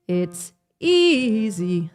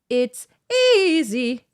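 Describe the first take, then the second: First: It is spoken at a lower pitch. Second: It is spoken at a high pitch. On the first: "you should start somewhere like, it's easy, somewhere like that" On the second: "if I demonstrate to you, it's easy. For me, that B four is like"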